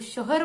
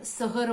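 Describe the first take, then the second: First: It is said in the standard city way. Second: It is said in the rural village way. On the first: The speaker calls it right. "शहर के लोग शहर बोलेंगे" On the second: The speaker calls it wrong. "ग्रामीण के लोग शहर बोलेंगे"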